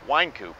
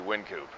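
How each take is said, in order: First: The first syllable sounds like the word wine. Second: The first syllable does not sound like wine. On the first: This is how most people say the street name. "the street was called Winecoop by most people" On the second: This is the brewery's chosen name. "the owners of the brewery didn't want the word wine in their name"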